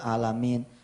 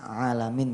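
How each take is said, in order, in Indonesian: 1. Katanya dibaca datar, tanpa irama. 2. Katanya dibaca dengan alunan nada. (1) "ada orang Fatihahnya lempeng" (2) "Padahal harusnya kan alamin"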